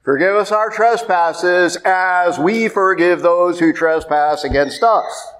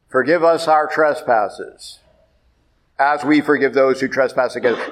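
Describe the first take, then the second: First: "trespasses as we forgive" run together slowly in one breath; no break after trespasses. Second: "trespasses" closed off with a falling stop, a pause before "as we forgive"; breaking the prayer at "trespasses" as if a sentence ends; wrong pause after trespasses. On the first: Priest showing the congregation the right way, "trespasses" flowing on unbroken. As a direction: carry "trespasses" straight on with no stop. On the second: Priest showing the congregation the wrong way, a falling stop after "trespasses".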